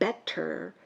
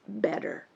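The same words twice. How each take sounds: First: The middle sound is a clear, crisp T. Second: The middle sound is a soft D. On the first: The speaker calls it wrong. "So it's not better" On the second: The speaker calls it right. "the T becomes a D"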